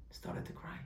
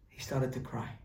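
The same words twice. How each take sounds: First: Hushed whisper. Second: Said in the usual way. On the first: A narrator's reading. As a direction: whisper the words about crying. Teacher repeats it, hushed.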